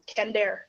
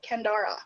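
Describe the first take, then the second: First: The name is said with two syllables. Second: The name is said with three syllables. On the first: The speaker calls it wrong. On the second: The speaker calls it right. "it's got a third syllable"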